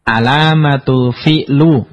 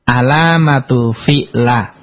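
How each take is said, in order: First: The final word ends in a u vowel. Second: The final word ends in an a vowel. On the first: "enggak boleh" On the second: "enggak boleh dibaca"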